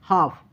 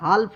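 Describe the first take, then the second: First: The L sound is silent in the word. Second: The L sound is pronounced in the word. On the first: The speaker calls it right. "यल को नहीं पढ़ना है, हाफ पढ़ना है" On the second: The speaker calls it wrong. "हाल्फ नहीं"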